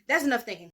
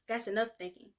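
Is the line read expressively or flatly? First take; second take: expressively; flatly. First: It is read with acted, expressive feeling. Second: It is read flatly, without acted feeling. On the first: "I'm trying to act while I'm doing it" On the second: "reading it blankly, unbiasedly"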